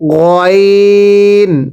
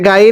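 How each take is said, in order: First: The first vowel is a rounded 'o' sound. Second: The first vowel is an open 'a' sound. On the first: The speaker calls it right. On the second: The speaker calls it wrong. "এটা গাইন না"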